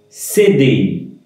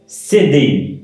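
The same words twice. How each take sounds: The two takes are said the same way.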